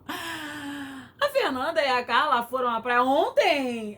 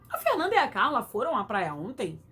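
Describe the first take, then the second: First: The question tune appears suddenly only at the end. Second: The question tune runs from the very beginning. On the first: The reader noticed too late that it was a question. The speaker calls it wrong. "Aí você dá aquela entonação ridícula" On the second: The reader knew from the start it was a question. The speaker calls it right. "o ideal seria você já ter começado com a entonação"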